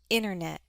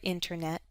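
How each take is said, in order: First: The T sound is left out. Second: The T sound is clearly pronounced. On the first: "it's also common to drop the T in words that use the prefix inter" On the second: "it's perfectly fine to say the T"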